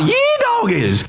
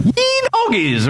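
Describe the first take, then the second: First: High whooping yee-haw yell; mock triumphant shout. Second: High whooping yell of triumph; mock battle shout. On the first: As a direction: belt it out like a rodeo cheer. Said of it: "I want you to shout". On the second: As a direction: holler it like a cowboy cheering. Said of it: "the loud shout".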